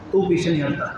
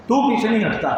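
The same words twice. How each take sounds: First: Said in the usual way. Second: Higher, exasperated complaint; exasperated outburst. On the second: Acted. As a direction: vent the commander's frustration. Frustrated commander to the companion.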